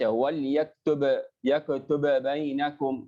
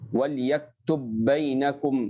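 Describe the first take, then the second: First: The first consonant bounces, splitting the pair. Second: The two consonants merge into one held sound. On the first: The speaker calls it wrong. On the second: The speaker calls it right.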